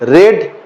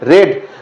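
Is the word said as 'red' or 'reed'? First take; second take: red; red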